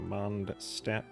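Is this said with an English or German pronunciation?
English. It is pronounced with English sounds.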